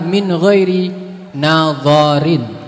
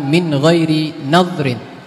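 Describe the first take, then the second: First: A vowel is sounded between the d and r. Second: No vowel is sounded between the d and r. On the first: The speaker calls it right. "Yang harkat yang benar adalah min ghairi nadharin dengan harkat fathah dha" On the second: The speaker calls it wrong. "bukan min ghairi nadrin"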